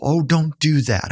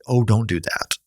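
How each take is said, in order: First: High, coddling hush-up voice; mock soothing. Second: Only a hint of the coddling voice; lightly voiced hush. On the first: Counselor mimics people hushing a crier, high and coddling. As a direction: play the fussing comforter who stops the tears. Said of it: "We wanna get people". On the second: Counselor quotes the hushing line nearly plainly. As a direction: say it almost in your own voice, a faint hush. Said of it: "but don't say".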